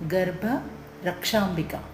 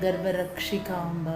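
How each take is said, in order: First: The name ends with the syllables 'ambika'. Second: The name ends with the syllables 'ikamba'. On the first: The speaker calls it right. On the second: The speaker calls it wrong.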